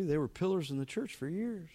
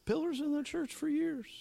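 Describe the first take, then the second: First: Said in the usual way. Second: Breathy, awed whisper of the same line; whispered echo. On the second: Shown as a demonstration. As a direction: hush it as a reverent aside.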